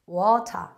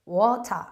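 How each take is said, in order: Both takes have the same delivery.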